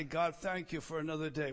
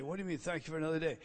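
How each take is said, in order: First: Said in the usual way. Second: Correcting himself. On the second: Retold or imitated. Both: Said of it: "So I stop and rephrase it".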